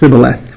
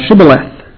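First: The word begins with an 's' sound. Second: The word begins with a 'sh' sound. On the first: This reveals the speaker as an Ephraimite. The speaker calls it wrong. "they were not pronouncing their sheens, they would pronounce seens" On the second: This is the Gileadite way of saying it. The speaker calls it right. "Say now Shibboleth"

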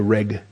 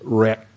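First: The word ends with a plain G sound. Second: The word ends with a closed-throat K sound. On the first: The speaker calls it wrong. "A lot of people give up on it and they just use a G sound" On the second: The speaker calls it right. "you close your throat and you have that little k connected to it"

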